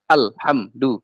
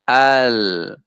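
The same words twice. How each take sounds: First: "Alhamdu" chopped, l and m stopped dead; wrongly held. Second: "Alhamdu" slow, l and m lingering; correct flowing reading. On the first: Teacher shows forbidden reading, "Alhamdu" abruptly stopped. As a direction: cut "Alhamdu" into short separate syllables. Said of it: "itu namanya syiddah". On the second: Teacher models how we read it, "Alhamdu" drawn out. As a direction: let the l and m of "Alhamdu" ring on. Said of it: "kita baca Alhamdu". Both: Shown as a demonstration.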